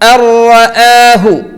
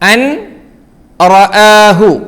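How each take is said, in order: First: The n merges into a doubled r sound. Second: The n sound is pronounced before the r.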